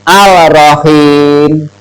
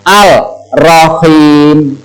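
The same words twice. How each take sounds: No difference in how they are said.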